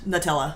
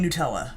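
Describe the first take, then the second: First: The first syllable sounds like the word nut. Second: The first syllable sounds like noo. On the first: The speaker calls it right. "N U T like a nut" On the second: The speaker calls it wrong. "Why were we ever saying Nutella?"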